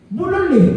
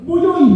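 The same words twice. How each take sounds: First: Said in the usual way. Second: Buyoy, with the l's turned into y's, pitched higher and louder; toddler's mispronunciation. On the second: Shown as a demonstration. Preacher mimics how a small child says bulol. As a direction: say Buyoy the way a two-year-old says bulol.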